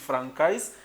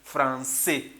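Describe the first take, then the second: First: The c is pronounced as a k sound. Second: The c is pronounced as an s sound. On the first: The speaker calls it wrong. "You should not pronounce it" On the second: The speaker calls it right. "you have to pronounce it"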